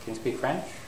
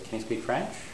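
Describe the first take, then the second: The two takes are said the same way.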